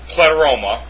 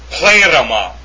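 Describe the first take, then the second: First: The stress falls on the second syllable. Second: The stress falls on the first syllable. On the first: The speaker calls it wrong. "It's not pleroma" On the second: The speaker calls it right. "The accent is on the eta"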